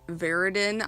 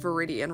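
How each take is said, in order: First: The word ends with a short 'in' sound. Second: The word ends with an 'ee-an' sound. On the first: The speaker calls it wrong. "I was saying Viridian wrong" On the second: The speaker calls it right. "I do know the actual pronunciation"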